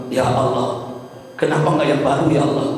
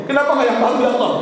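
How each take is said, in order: First: Restrained imitation of dying murmurs; retold delirious plea. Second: High, insistent imitated lament; retold delirious plea. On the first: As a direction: plead it gently as the dying husband. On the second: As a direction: repeat it pleadingly, pitched right up. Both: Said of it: "suamiku meracau".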